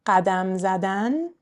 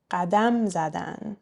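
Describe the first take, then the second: First: قدم زدن with the final -dan stressed and rising; last-syllable stress. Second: قدم زدن with the end of قدم stressed, زدن even; stress on dam. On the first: Teacher comparing side by side, infinitive قدم زدن stressed at the end. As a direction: say قدم زدن as ghadam zaDAN. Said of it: "let's compare them side by side". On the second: Teacher comparing side by side, they form قدم زدن stressed on dam. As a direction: punch ghaDAM in قدم زدن. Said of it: "non-verb part is gonna be stressed". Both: Shown as a demonstration.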